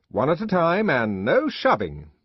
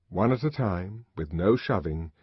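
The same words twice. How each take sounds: First: High, loud stern command, stressed no; peremptory order. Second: Said in the usual way. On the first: A narrator's reading. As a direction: lay down the rule firmly. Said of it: "he said peremptorily". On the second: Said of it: "the twins stepped forward".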